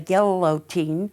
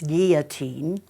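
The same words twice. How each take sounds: First: The double L is said as an L sound. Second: The double L is said as a Y sound. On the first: The speaker calls it wrong. "those people in the Midwest who say guillotine" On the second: The speaker calls it right. "when you have two L's, it's pronounced as a Y"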